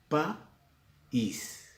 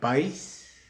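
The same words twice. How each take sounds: First: The vowels a and i form two syllables. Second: The vowels a and i form one syllable. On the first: The speaker calls it right. "Pero es un hiato, ruptura" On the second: The speaker calls it wrong. "sería un solo golpe de voz, como el caso del diptongo"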